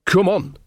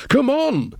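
First: Raised-pitch, brisk urging; an insistent call to get moving; urgent summons. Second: Very high-pitched urgent cry; impatient shout over the shoulder, pitched right up; urgent call. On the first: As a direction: hurry her along. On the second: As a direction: call back to her to hurry. Calls out while hurrying away. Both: Acted.

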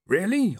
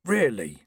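First: High surprised "Really?"; "Really?" lifted high in surprise. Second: Said in the usual way. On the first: A narrator's reading. Reg surprised. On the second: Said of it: "making a mental note".

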